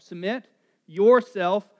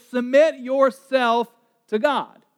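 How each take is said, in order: First: "Submit yourself" slow and loud, weight on "yourself"; stressed first part. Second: "Submit yourself to God" slow, each word weighted; stressed scripture. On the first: Preacher driving home the forgotten first part. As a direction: drive home "yourself" slowly. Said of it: "which is the first part". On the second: Preacher stressing the verse's first part. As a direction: lean on "Submit". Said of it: "we forget the first part". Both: Shown as a demonstration.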